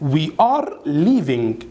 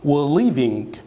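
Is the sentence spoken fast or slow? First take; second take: slow; fast. First: The sentence is said slowly with full words. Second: The sentence is said quickly with words reduced. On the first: "طيب ناخد مثال slow speaking" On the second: "طب تتنطق إزاي بسرعة؟"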